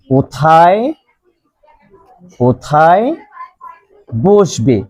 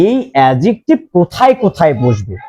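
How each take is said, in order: First: "কোথায়", "কোথায়", "বসবে" each alone, long pauses between; stretched "কোথায়", then a wait before each next word; word-by-word dictation. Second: Said in the usual way. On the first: Shown as a demonstration. Teacher dictates question word by word.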